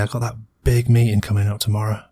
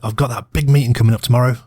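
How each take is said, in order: First: It is said in an uneasy, apprehensive tone. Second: It is said in an excited, upbeat tone. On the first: They feel worried about the meeting. "mm, apprehension" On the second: They look forward to a big opportunity. "they sound jazzed up"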